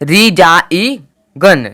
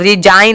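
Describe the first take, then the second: First: A g sound is heard before the n. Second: The g is silent, no g sound heard. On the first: The speaker calls it wrong. "रिजाई गन नहीं आया" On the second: The speaker calls it right. "जी का उच्चारण नहीं हुआ है"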